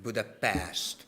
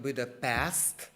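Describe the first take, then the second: First: "Budapest" ending in sht, as Budapesht; "Budapest" said Hungarian-style, pesht, falling; correct Hungarian pronunciation. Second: "Budapest" with a plain s, as in pest; "Budapest" ending in s-t, rising; wrong foreign pronunciation. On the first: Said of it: "it's Budapest". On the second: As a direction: say "Budapest" the English way, hissless sh-free ending. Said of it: "but not Budapest". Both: Shown as a demonstration.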